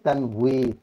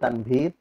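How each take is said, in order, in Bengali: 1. মাঝের ব্যঞ্জনটি w ধ্বনি। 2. মাঝের ব্যঞ্জনটি v ধ্বনি। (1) "কিন্তু মূলত শব্দটা কি?" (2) "বাঙালিরা আমাদের ওয়াও শব্দটা একটা ভা ভ উচ্চারণ আসা পড়ে, ... সেই হিসেবে আমরা বাংলাতে বলি তানভীর"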